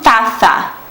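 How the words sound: The middle consonant is a TH sound. This is how it is said in Spain. "na Espanha o Z tem aquele som tipo do T H do inglês"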